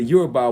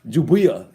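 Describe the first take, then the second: First: The word begins with a Y sound. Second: The word begins with a J sound. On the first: The speaker calls it right. "They pronounce it correctly, Yoruba, with the Y" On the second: The speaker calls it wrong. "if we use European way of pronouncing Yoruba, it would be Jubia"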